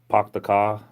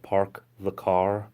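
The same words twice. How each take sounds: First: The R sounds in park and car are dropped. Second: The R sounds in park and car are pronounced. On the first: This is how locals say it. "we say park the car instead of" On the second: This is how outsiders say it. "instead of park the car"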